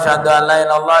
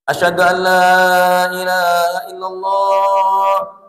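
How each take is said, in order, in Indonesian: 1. Diucapkan dengan cepat dan terburu-buru. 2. Diucapkan dengan perlahan dan tidak terburu-buru. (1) "Tapi kalau qomatnya begini" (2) "pelan-pelan ya. Gini nih"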